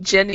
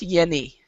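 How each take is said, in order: First: The name begins with a J sound. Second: The name begins with a Y sound. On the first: "some people is- is- you would call Jenny" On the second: "Jenny is still co- still pronounced Yenny"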